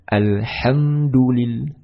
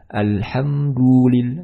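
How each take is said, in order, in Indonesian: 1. Huruf u setelah d dibaca pendek. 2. Huruf u setelah d dibaca panjang. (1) "tetapi alhamdulillah" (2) "memanjangkan huruf dal yang berharokat dhammah"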